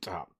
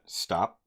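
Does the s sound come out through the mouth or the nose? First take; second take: nose; mouth. First: The s sound goes up into the nose. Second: The s sound comes out through the mouth. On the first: The speaker calls it wrong. "I used to say it like stop" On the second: The speaker calls it right. "like the way I said that right there, that's not how I used to say it"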